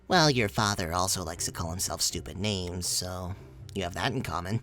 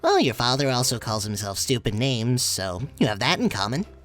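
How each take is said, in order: First: The voice is lower, slipping out of Horace's voice. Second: The voice is higher, in Horace's voice.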